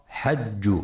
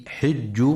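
First: حج with fatha on the ha, hajj; wrong reading. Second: حج with kasra on the ha, hijj; correct reading. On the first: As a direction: read حج wrongly as hajj with an open a. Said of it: "فلا يقرأ حج". (حج بفتح الحاء خطأ) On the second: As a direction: say حج as hijj with a clear i. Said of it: "لكسر الحاء وعدم فتحها". (حج بكسر الحاء) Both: Shown as a demonstration.

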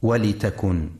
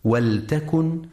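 First: "ولتكن" said walitakun, with an i after the ل; kasra on the lam. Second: "ولتكن" said waltakun, no vowel after the ل; sukun on the lam. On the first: Teacher showing listeners the reading to avoid, "ولتكن" as walitakun. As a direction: put a short i on the ل in "ولتكن": walitakun. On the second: Teacher showing listeners the correct reading, "ولتكن" as waltakun. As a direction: close the ل straight onto the t in "ولتكن": waltakun. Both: Shown as a demonstration. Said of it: "لسكون اللام وعدم كسرها".

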